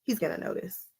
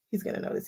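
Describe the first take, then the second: First: Said in the usual way. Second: Whispered aside, no voice at all. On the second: Real, not acted. Predicting her husband will spot the quilt, whispered. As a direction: breathe it like a secret. Repeats the line, second time whispered.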